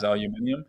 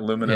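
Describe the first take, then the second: First: It is said the British way, aluminium. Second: It is said the American way, aluminum.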